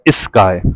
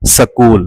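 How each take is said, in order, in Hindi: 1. एक स्वर s से पहले जोड़ा जाता है। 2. एक स्वर s और k के बीच डाला जाता है। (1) "असां चवंदा आहियूं" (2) "पंजाबी स्पीकर्स ... ज़बर ॾेई करे प्रोनाउंस कंदा आहिनि"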